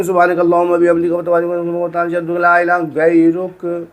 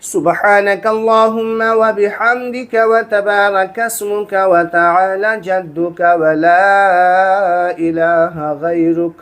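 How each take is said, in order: First: Fast recitation with swallowed words; fast, slurred prayer done carelessly; rushed mumbling. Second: Slow, every word fully pronounced; careful, clear prayer recital. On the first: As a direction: gabble it the wrong way, too quick. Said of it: "इस तरीके से नहीं". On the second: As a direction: recite it the right way, unhurried. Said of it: "नहीं". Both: Shown as a demonstration.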